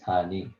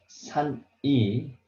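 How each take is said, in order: First: The final consonant is carried into the next vowel. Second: The final consonant and next vowel are separated. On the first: The speaker calls it right. "you have to read like this" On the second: The speaker calls it wrong. "we don't read like this"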